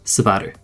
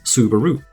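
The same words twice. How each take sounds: First: The final u sound is nearly silent. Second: The u sounds are fully pronounced and prominent. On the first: This is how it is said in Japanese. The speaker calls it right. "at the end of a word, it's practically silent" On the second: This is how most English speakers say it. The speaker calls it wrong. "most English speakers tend to emphasize the U"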